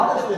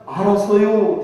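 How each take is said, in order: First: Said in the usual way. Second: 알았어요 drawn out long and falling, louder; 느릿한 충청도 말투로 알았어요; slow Chungcheong drawl. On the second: Retold or imitated. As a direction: stretch out 알았어요 like a lazy country yes. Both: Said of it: "대답은 잘하는데 십 년 가도 그게 안 나와".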